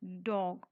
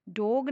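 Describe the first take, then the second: First: डॉग said correctly with an open aw sound, dawg; the right way, डॉग with an open ऑ; right vowel. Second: The wrong way, डॉग with a plain o; wrong vowel. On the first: Teacher gives the correct model, open vowel. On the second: Teacher shows the mistake to avoid, wrong vowel. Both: Shown as a demonstration. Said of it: "डॉग नहीं".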